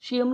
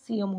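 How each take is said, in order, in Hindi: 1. अंत की शुरुआत sh ध्वनि से होती है। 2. अंत की शुरुआत s ध्वनि से होती है। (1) "शियम नहीं होता" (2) "सीएम होता है"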